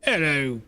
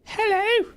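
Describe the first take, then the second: First: Low British male hello; plain British male greeting; deep UK male hello. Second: High falsetto British hello; British lady hello, pitched way up; female UK voice. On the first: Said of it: "That's a male voice". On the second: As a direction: squeak it out like an English lady. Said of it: "how do I do a female U K voice". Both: Pretend.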